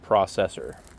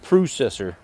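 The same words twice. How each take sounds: First: It is said with an American pronunciation. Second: It is said with a Canadian pronunciation. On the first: "Americans would say processor" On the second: "as the Canadians would say"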